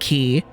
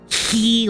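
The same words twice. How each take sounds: First: The word begins with a hard K sound. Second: The word begins with a hissing H sound. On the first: The speaker calls it wrong. "it's actually not pronounced Key" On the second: The speaker calls it right. "more of an H sound... like imagine you're a goose hissing"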